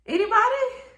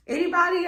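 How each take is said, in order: First: Anybody? squeaked much higher; a hopeless, very high Anybody into silence; awkward repeated plea. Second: A high, sheepish anybody; sheepish question. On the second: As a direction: ask anybody lightly, higher up. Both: Retold or imitated. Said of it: "And I'm just like".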